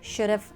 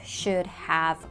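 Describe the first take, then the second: First: It is contracted into one short word. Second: Both words are said fully and separately. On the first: The speaker calls it right. "We contract them and say" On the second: The speaker calls it wrong. "we don't say"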